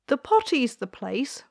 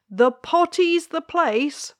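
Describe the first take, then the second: First: A touch of a firm queen; lightly voiced royal mother. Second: Higher, louder and slower insistent queen. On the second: Acted. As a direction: stretch out the place, firmly repeating. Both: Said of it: "said the queen".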